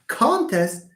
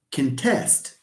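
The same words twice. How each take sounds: First: "contest" as CON-test; stress on first syllable. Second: "contest" as cun-TEST; stress on second syllable. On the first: Teacher contrasts noun with verb, "contest" stressed up front. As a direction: give "con" the weight in "contest". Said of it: "you have con is the first syllable". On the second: Teacher contrasts verb with noun, "contest" stressed on the end. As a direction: reduce "con", put the weight on "test" in "contest". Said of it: "a verb". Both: Shown as a demonstration.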